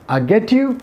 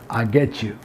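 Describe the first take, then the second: First: "get" and "you" kept apart, higher; unlinked get you. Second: "get you" merged into "get-chu", low and soft; linked get-chu. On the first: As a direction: say "get you" with a clean t, then y. ("get you" अलग-अलग) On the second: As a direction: drop down and blend "get you" into one word. ("get you" जोड़कर, गेचू) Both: Shown as a demonstration. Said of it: "Get or get you".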